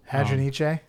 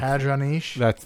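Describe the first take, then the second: First: The name ends with a pronounced final vowel. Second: The name ends without a final vowel sound. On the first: The speaker calls it right. "I think you need to pronounce the E" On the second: The speaker calls it wrong. "That sounds too French"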